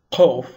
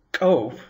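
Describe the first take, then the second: First: "kof" with k far back in the throat; Arabic-style pronunciation. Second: "kof" with a popped Ethiopic k; Ethiopic-style pronunciation. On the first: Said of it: "an Arabic sort of pronunciation". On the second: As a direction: make the k of "kof" ejective. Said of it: "an Ethiopic Semitic pronunciation". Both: Shown as a demonstration.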